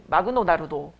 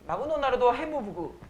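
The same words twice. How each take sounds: First: Put-on Japanese accent. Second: Lightly mimicked Japanese accent on "마그노 나루도"; a hint of Japanese accent, extra vowels after the final consonants. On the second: (가벼운 일본어 억양 흉내) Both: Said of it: "일본어 흉내내는 되게 쉬운 유형".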